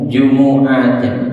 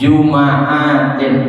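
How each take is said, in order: First: The m is followed by a u vowel. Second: The m is followed by an a vowel. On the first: "dengan baca dhammah jimnya dan juga mim" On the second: "mimnya dibaca fathah"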